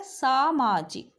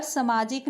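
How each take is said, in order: First: सामाजिक with a long सा, slowly; slow correct pronunciation. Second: सामाजिक with a short स; wrong pronunciation demo. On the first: Teacher models the correct सामाजिक slowly. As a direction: stretch the सा in सामाजिक. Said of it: "Hindi में क्या होता है?". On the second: Teacher reads the book's misspelt सामाजिक. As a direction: read the wrong सामाजिक as written. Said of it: "सामाजिक नहीं होता". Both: Shown as a demonstration.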